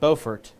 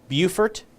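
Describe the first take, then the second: First: It is pronounced the North Carolina way. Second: It is pronounced the South Carolina way. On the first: "Beaufort, I believe, in North Carolina" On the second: "Beaufort in South Carolina"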